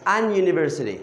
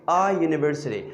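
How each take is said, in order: First: "an university" with an n before the y sound; incorrect article demo. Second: "A university" with plain "A", no n before "university"; "A" straight into the y sound of "university"; article before y-sound. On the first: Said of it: "Why we're not saying". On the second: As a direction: demonstrate "A university" as the correct form. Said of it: "The first one is the sound of y". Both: Shown as a demonstration.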